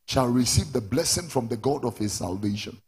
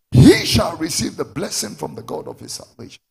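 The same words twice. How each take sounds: First: Said in the usual way. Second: Loud promise, launched on a shouted HE; forceful preaching. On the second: Real, not acted. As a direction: proclaim it loudly to the congregation.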